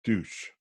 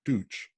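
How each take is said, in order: First: Deutsch said softly as "toytsh"; German word "Deutsch". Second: Deutsch said as "toytch", soft ending; German pronunciation. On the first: Retold or imitated. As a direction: answer simply in German, Deutsch. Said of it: "what language do you speak". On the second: Shown as a demonstration. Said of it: "which is German for German, Deutsch".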